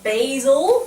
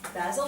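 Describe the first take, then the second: First: Basil is said in an American way. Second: Basil is said in a non-American way.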